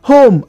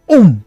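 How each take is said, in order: First: Said in the usual way. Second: "um" for home, no H at the start; imitated H-less pronunciation, "um"; H dropped from home. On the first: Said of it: "Home as um". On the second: Shown as a demonstration. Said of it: "tribes that pronounce words".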